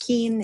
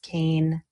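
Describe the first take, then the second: First: The name rhymes with keen. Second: The name rhymes with cane. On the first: The speaker calls it wrong. "is not pronounced Keen" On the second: The speaker calls it right. "It is pronounced Kane"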